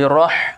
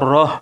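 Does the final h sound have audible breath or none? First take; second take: audible breath; none. First: The final h is released with audible breath. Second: The final h has no audible breath. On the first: The speaker calls it right. "tapi roh ada dia istilah tajwidnya hamas angin angin yang keluar" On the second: The speaker calls it wrong. "jangan baca roh"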